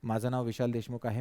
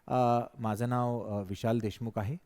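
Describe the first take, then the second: First: It is said in a flat, straight tone. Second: It is said seriously with a wider pitch range. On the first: The speaker calls it wrong. "Without टोनॅलिटी" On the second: The speaker calls it right. "But it is very serious tone"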